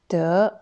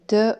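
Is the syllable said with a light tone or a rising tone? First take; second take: rising; light. First: The syllable has a rising pitch. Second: The syllable is short, light and unstressed. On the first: "deuxième ton" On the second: "en ton léger"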